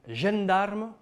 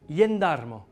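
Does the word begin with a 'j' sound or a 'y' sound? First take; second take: j sound; y sound. First: The word begins with a 'j' sound. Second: The word begins with a 'y' sound. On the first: This is how it is said in some areas. "ye ou je" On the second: This is how it is said in other areas. "ye ou je"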